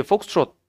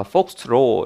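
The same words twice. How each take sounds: First: Said in the usual way. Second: 폭스트롯 said as "폭스트로", without the final T; 폭스트롯 ending on an open "ro"; final T dropped. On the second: Shown as a demonstration. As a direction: leave the T off the end of 폭스트롯. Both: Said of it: "T를 빼고".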